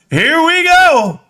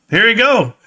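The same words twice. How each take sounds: First: Drawn-out hype. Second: Said in the usual way. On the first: Real, not acted.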